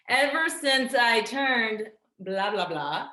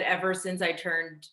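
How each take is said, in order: First: Slow, loud, raised restart; pointedly drawn-out placeholder for a secret; emphatic evasion. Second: Said in the usual way. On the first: Acted. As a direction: dodge it loudly and slowly, drawing out each word. Restarts, withholding her age.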